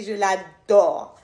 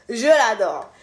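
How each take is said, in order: First: Slow, fond first take; tender. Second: Said in the usual way. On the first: Real, not acted. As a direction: linger over it lovingly. Says she adores her sister.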